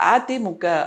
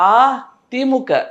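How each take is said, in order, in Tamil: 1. முதல் உயிரெழுத்து குறில். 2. முதல் உயிரெழுத்து நெடில். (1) "குறியில" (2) "நெடில்ல சொல்லணும்"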